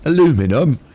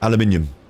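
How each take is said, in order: First: It is said the American way, four syllables. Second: It is said the British way, five syllables. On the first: This is the version changed over there. The speaker calls it wrong. "you sort of changed it and made it sound all weird" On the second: This is the original version. The speaker calls it right. "Thank you very much"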